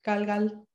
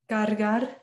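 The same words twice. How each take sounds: First: It is said Puerto Rican style, R like L. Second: It is said with a clear R sound.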